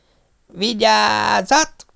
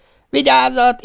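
First: Very slow, high warning with a rise; long drawn-out yell. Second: Short, sharp, much higher shout; quick warning shout. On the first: Pop bellowing the last warning, drawn-out yell. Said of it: "üvöltötte a tűzmester". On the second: Pop warning the crowd before the launch, quick sharp shout. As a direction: snap the warning out fast. Firing a rocket, warning all. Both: Acted.

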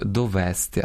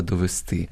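First: Довести stressed on the middle -ВЕС-; wrong dialect stress. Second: Довести stressed on the final -ТИ; correct stress. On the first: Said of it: "Або ж діалектним впливом". (діалектний наголос на другому складі: довести) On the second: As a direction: hit the last syllable of довести. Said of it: "а треба довести". (наголос на останньому складі: довести) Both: Shown as a demonstration.

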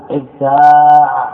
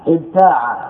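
First: ابتاع with the "aa" held long and loud; slow, loud ابتاع, alif sustained; drawn-out alif. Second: Said in the usual way. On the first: Shown as a demonstration. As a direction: stretch and swell the middle vowel of ابتاع. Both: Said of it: "وجب حذف عينه".

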